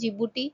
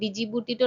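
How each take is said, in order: First: The word begins with a 'j' sound. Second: The word begins with a 'd' sound. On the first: The speaker calls it right. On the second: The speaker calls it wrong. "ডিজিবুটিটো নহয়"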